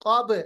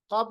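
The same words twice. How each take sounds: First: क़ब with the ब released in a bounce; qalqalah demo. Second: क़ब with a dead ब; wrong pronunciation demo. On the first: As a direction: let the ब of क़ब echo. (क़लक़ला के साथ सही क़ब) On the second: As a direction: end क़ब shut, no echo. (बिना क़लक़ला के ग़लत क़ब) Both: Shown as a demonstration. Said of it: "क़ब नहीं".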